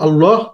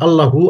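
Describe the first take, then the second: First: The word stops on its final consonant. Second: The word ends with a full vowel ending.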